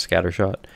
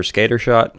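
First: Said in the usual way. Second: "scatter shot" said as "SKAY-ter shot"; deliberate mispronunciation. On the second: Shown as a demonstration. Gamer reading out his build's items, mispronounced on purpose. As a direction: say "scatter shot" with a long A in scatter, like skater. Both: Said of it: "I know it's scatter shot".

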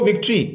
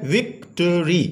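First: Said in the usual way. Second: विक्ट्री broken into three slow beats, vik-tu-ree; syllable by syllable. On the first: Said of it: "ये three syllable word है". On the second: Shown as a demonstration. Teacher showing children how to break words, syllable by syllable. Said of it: "उनके syllables को तोड़ सकते हैं".

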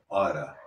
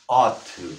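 First: "oughta" run together as one word; casual American "oughta", ending in "uh"; American reduced form. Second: Said in the usual way. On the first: Shown as a demonstration. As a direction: say "oughta" with a soft American flapped T. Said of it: "como en Estados Unidos se dice". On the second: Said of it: "O como en Estados Unidos se dice".

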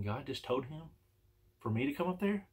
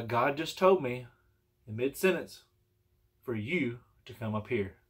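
First: Softly puzzled, rising into a question; incredulous question. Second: Slow, deliberate quote of the preacher; measured retold announcement. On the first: Retold or imitated. His puzzled thought on hearing it. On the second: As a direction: relay it slowly, as a statement. Retelling the preacher's message to him.

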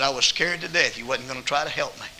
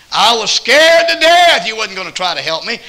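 First: Said in the usual way. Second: High, loud, tearful pleading; raised pleading voice, near tears; crying woman's plea. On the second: Retold or imitated. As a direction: cry it out like a scared woman. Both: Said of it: "She was crying".

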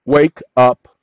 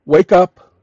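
First: Firm low command. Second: Commanding call. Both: Shown as a demonstration. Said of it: "Now, watch this".

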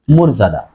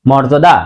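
First: মর্যাদা said "morjada"; rounded o and clear "ja" in মর্যাদা; correct o sound. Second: মর্যাদা said "mawrjoda"; common mispronunciation. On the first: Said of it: "উচ্চারণ হবে". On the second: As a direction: open aw starting মর্যাদা. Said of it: "মর্যাদা হবে না". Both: Shown as a demonstration.

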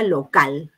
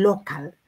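First: Said in the usual way. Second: "local" falling, stressed on the first syllable; English intonation. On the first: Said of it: "es igual que decir". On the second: Shown as a demonstration. Teacher showing the English word after the Spanish, "local" with front stress. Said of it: "le damos esa entonación".

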